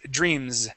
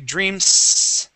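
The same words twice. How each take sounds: First: The word ends with a buzzing Z sound. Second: The word ends with a hissing S sound. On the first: The speaker calls it right. "it's dreams, okay, it has that vibration" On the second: The speaker calls it wrong. "we don't say dreams, okay, with an S sound"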